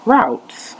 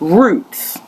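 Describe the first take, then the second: First: It is said with a North American pronunciation. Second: It is said with a non-North American pronunciation.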